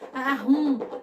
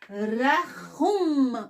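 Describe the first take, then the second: First: The middle consonant is soft, without throat scraping. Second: The middle consonant is scraped harshly in the throat. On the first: The speaker calls it wrong. "Não adianta eu falar arrum" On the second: The speaker calls it right. "temos que arranhar a garganta mesmo"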